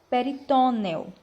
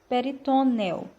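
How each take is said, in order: No difference in how they are said.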